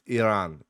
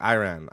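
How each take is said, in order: First: The name is said in a native-like way. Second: The name is said in an anglicized way. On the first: The speaker calls it right. "but it's" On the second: The speaker calls it wrong.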